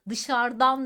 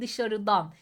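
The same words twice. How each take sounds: First: The vowel before the ending is dropped. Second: The vowel before the ending is kept. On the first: The speaker calls it wrong. "değil" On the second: The speaker calls it right. "ek aldıklarında sonlarında bulunan ünlüler düşmez"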